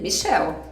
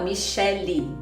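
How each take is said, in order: First: The name ends without a final vowel sound. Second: The name ends with a final vowel sound. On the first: "o E final não é pronunciado mesmo" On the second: "quando tem o Y, aí a gente fala Michelle"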